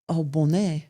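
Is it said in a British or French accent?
French. It is said in a French accent.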